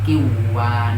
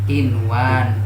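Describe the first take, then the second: First: The n is merged into the w. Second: The n is pronounced clearly before the w. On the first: The speaker calls it wrong. "tidak boleh dibaca ... kiwan" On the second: The speaker calls it right. "harus dibaca idhar"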